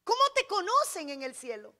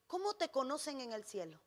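First: Lifted, projected preacher's question; emphatic repeated question. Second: Soft, lower-pitched pondering question; hushed question. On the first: Preacher putting the question to the church, emphatic projected delivery. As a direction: press the question on the listeners. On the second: Preacher asking the church about heaven, hushed question. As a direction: drop the voice and let the question hang. Question posed softly, then repeated louder. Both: Real, not acted.

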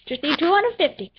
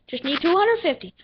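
No difference in how they are said.

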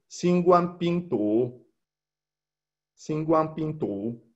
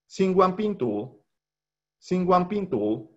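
First: Xinguang Pingtu said slowly, with a rising tone on Xinguang; Mandarin syllables. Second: Xinguang Pingtu said high and slow; Mandarin review. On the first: Teacher modelling the Mandarin word for students, slow and careful. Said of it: "se dice en chino mandarín". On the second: Teacher reviewing Xinguang Pingtu for the class, high and slow. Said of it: "voy a repetir la pronunciación". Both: Shown as a demonstration.

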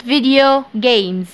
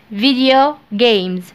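No difference in how they are said.

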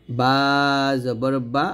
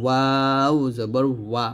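First: "বা" with both lips meeting; closed-lip B. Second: "ওয়াও" long, lips rounded. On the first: Teacher repeats the contrast, closed-lip "বা". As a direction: press lips shut, release "বা". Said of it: "দুই ঠোঁট মিল করে". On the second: Teacher repeats the contrast, rounded "ওয়া". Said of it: "দুই ঠোঁট গোল করে". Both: Shown as a demonstration.

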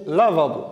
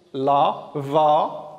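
First: Said in the usual way. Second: "Lavabo" slowly broken into la, va, bo; syllable by syllable. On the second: Shown as a demonstration. Teacher shows pupils the va in a word, syllable by syllable. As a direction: stretch out each syllable of "Lavabo" with gaps between. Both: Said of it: "va comme lavabo".

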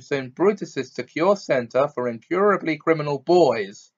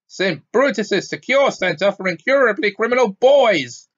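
First: Said in the usual way. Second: High, loud exasperated bellow. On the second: A narrator's reading. Uncle correcting the boy on the school name, bellowing. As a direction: bellow the whole name, building on the last word. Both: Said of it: "bellowed Uncle Vernon".

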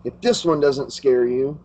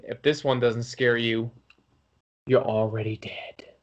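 First: Said in the usual way. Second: Low, hushed horror-host sign-off; creepy whisper on already dead; spooky sign-off. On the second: Acted. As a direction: drop low and breathe the last words. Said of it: "This is [name] saying".

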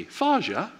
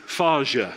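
First: Faja with a high pleading question lift; child asking dad for advice, sweet high Faja; asking inflection. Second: Said in the usual way. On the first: Retold or imitated. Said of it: "It's always the inflection". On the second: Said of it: "this phrase".

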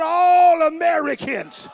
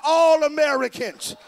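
First: Louder and slower, each word pushed; louder, slower call. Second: Loud rally call; loud call to the crowd. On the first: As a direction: really pull the shout out of them. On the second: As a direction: call it out so they answer back. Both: Real, not acted. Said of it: "Somebody shout".

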